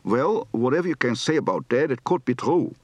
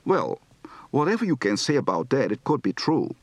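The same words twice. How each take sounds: First: Strong Dutch accent, d for th at the end; thick Dutch-accented English; heavy Dutch accent. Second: Gentle Dutch accent; just a hint of Dutch vowels; lightly Dutch-accented English; light to medium Dutch accent. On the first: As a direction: lean into the Dutch sounds. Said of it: "Heavy accent". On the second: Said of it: "Light to medium accent". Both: Shown as a demonstration.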